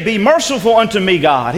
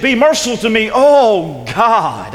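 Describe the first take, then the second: First: Said in the usual way. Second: "oh" leaned on as a cry of desperation; stress on oh. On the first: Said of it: "He didn't say". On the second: Shown as a demonstration. Preacher showing the word of desperation, "oh" stressed. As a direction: make "oh God" sound desperate. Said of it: "He said".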